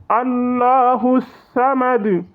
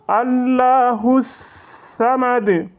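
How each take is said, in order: No difference in how they are said.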